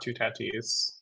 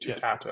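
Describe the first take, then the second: First: The last syllable ends in an 'ee' sound. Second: The last syllable ends in an 'ah' sound. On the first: The speaker calls it wrong. "it's not Two Tatis" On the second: The speaker calls it right. "It's Two Tatas"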